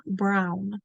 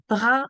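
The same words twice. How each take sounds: First: Said in the usual way. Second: "Brun" in French, the n melting into the vowel; French-accented "Brun", held up for comparison. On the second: Shown as a demonstration. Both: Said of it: "Can you hear the connection?".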